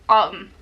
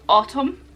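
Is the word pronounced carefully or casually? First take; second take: casually; carefully. First: The word is pronounced casually and loosely. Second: The word is pronounced carefully and fully. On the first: "Whereas I'd say autumn" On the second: "if I have to pronounce it properly it's like autumn"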